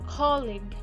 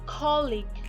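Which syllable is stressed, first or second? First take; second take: first; first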